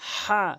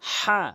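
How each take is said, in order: First: The h sound is pressed from the throat. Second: The h sound is pressed from the throat.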